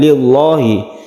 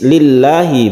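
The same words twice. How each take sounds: First: The L sound is heavy and thick. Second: The L sound is light and thin. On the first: The speaker calls it wrong. "bukan lillahi" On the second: The speaker calls it right. "membacanya itu tarqiq atau tipis"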